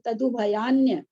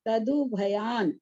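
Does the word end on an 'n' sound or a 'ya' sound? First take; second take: ya sound; n sound. First: The word ends with a 'ya' sound. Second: The word stops on the 'n' sound. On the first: The speaker calls it right. "तदुभयान्य यह तक लेना है" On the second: The speaker calls it wrong. "तदुभयान यह नहीं बोलना है"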